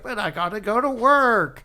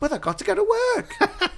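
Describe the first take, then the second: First: It is said in the speaker's normal accent. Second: It is said in a put-on British accent.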